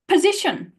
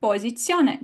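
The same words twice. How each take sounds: First: Position with an aspirated p; breathy p in position; English position. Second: Posizione with a dry p and ts; Italian p, no air. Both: Shown as a demonstration. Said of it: "the same as an opera".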